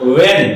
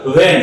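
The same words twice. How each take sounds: First: When said as "ven", lips drawn inward. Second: When starting with a W, lips pushed outward. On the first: Teacher explains the fine difference to students, lips-in V pronunciation. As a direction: start when on a V, lips tucked in. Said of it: "मुंह खुल करके होंठ अंदर की ओर". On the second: Teacher explains the fine difference to students, lips-out W pronunciation. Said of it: "मुंह खुल करके होंठ बाहर की ओर". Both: Shown as a demonstration.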